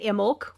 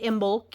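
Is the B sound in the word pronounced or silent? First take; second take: silent; pronounced. First: The B sound is left silent. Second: The B sound is clearly pronounced. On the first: "with the silent B" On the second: "with the pronouncing the B"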